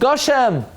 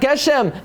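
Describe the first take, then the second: First: The first vowel sounds like 'o'. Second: The first vowel sounds like 'e'. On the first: It is the form used when said after the blessing. The speaker calls it right. "now it's Goshem" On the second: It is the form used inside the blessing. The speaker calls it wrong. "now it's not Geshem"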